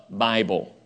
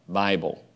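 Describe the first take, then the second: Both takes have the same delivery.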